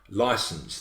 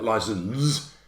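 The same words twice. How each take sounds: First: The S is pronounced as an S sound. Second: The S is pronounced as a Z sound. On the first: The speaker calls it right. "we say the S" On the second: The speaker calls it wrong. "We don't say it as Z like license"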